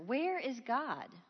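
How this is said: It is asked in a sterner, harsher tone.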